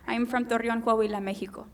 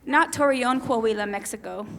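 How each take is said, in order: First: "Torreon, Coahuila, Mexico" said the Spanish way, Mexico with a breathy h; Spanish pronunciation. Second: "Coahuila, Mexico" read the English way, Mexico with a hard ks; anglicized "Torreon, Coahuila, Mexico" against the Spanish take; English pronunciation. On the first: Speaker giving her birthplace the Spanish way. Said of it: "Not Torreon, Coahuila, Mexico, as it would read in the English language". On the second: Speaker contrasting the English reading of her birthplace. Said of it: "as it would read in the English language". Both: Shown as a demonstration.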